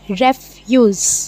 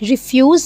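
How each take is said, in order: First: The first syllable sounds like 'reh'. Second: The first syllable sounds like 'rih'. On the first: The speaker calls it right. "ये है रेफ्यूज़" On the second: The speaker calls it wrong. "आप इसे रिफ्यूज़ ना पढ़िएगा"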